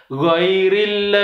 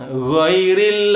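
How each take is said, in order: No difference in how they are said.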